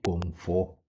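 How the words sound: The middle consonant is an 'f' sound.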